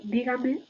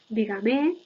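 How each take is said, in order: First: The last syllable carries no stress. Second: The last syllable also carries stress. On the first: "en lugar de" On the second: "la pronunciación tónica de pronombres átonos enclíticos"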